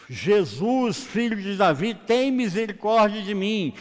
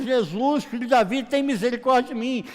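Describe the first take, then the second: First: Raised, pleading call for mercy; crying out. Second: High, loud, insistent plea; shouting louder. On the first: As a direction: call out to someone passing, louder and higher. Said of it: "Bartimeu clamou". (clamor em voz alta, suplicante) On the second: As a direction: cry out urgently over those silencing you. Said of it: "começa a gritar cada vez mais". (grito insistente, agudo e forte) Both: Acted.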